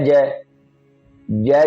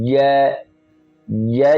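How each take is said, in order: Both takes have the same delivery.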